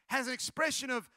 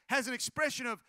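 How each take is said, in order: Both takes have the same delivery.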